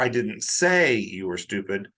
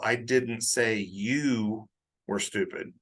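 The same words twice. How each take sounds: First: The word say is stressed. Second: The word you is stressed. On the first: It was thought but not spoken. "That implies I thought it, but I didn't say it" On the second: Someone else might have been called stupid. "I put the emphasis on you"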